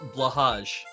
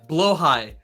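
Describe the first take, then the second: First: The name ends with a 'hage' sound. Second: The name ends with a 'high' sound. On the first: It is read straight from the letters. "we all call it blahage" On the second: It is how the commercials say it. "That's probably way close"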